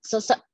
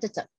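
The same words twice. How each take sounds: First: "Sesek" said cleanly with s sounds at both ends; corrected word. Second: "cecek" said with c sounds at both ends, a flub of "sesek"; slip of the tongue. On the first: Shown as a demonstration. Speaker corrects herself to the audience, a clear "Sesek" with s sounds. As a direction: fix the flub, a clear "Sesek" with crisp s. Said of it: "Eh, sesek, sorry". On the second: Real, not acted. Speaker flubs a word asking the audience, "cecek" with c sounds. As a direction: trip over "sesek" so it comes out "cecek". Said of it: "sorry kok cecek".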